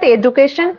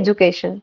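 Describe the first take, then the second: First: The middle consonant is a plain d sound. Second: The middle consonant is a soft j sound. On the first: This is the common Indian English form. "এটা বলা হয় normal, ... Indian ইংলিশে এডুকেশন এটা চলে" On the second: This is the original form. "অরিজিনাল উচ্চারণ হচ্ছে এডুকেশন"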